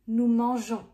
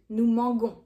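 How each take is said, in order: First: The g is soft, as in je. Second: The g is hard, as in go. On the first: The speaker calls it right. "to keep the je sound" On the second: The speaker calls it wrong. "sounds weird"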